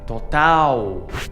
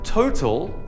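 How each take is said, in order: First: The word ends in a stressed 'ow' sound. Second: The word ends in an unstressed 'ul' sound. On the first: This is the Portuguese word. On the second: This is the English word.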